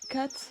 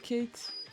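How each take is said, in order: First: The vowel is short, as in English cat. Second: The vowel is long, as in English Kate. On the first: The speaker calls it right. "C'est cat" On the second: The speaker calls it wrong. "pas Kate"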